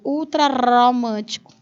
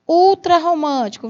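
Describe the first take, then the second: First: The r in 'romântico' is a weak tap. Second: The r in 'romântico' is a strong sound. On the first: The speaker calls it wrong. "Para você não ler ultra romântico. A leitura não é essa" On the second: The speaker calls it right. "Dobra o R"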